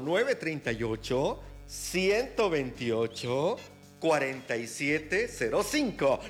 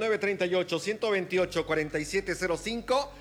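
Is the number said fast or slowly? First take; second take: slowly; fast. First: The number is said more slowly. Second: The number is said at normal, faster speed.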